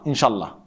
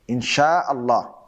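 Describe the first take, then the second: First: The glottal stop before Allah is dropped. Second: The glottal stop before Allah is pronounced. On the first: The speaker calls it wrong. "some people say inshallah, inshallah. That's actually wrong" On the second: The speaker calls it right. "It should be insha'Allah"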